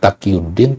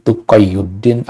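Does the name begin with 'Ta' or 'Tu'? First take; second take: Ta; Tu. First: The name starts with 'Ta', as Taqiyuddin. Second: The name starts with 'Tu', as Tuqayyuddin. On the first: The speaker calls it wrong. "bukan Taqiyuddin" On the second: The speaker calls it right. "dibaca taswir, tapi Tuqayyuddin"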